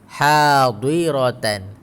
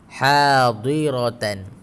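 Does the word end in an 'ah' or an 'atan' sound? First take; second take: atan; atan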